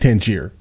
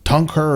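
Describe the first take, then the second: First: The name sounds like 'tan-jeer'. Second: The name sounds like 'tongue-her'. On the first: This is how it reads from the spelling. "I read it Tangier" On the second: This is how locals say it. "it sounds like tongue her or something like that"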